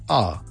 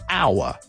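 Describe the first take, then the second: First: The word is unstressed and said in reduced form. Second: The word is stressed and said in full form. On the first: "if you don't stress it, it becomes our" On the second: "If I stress it"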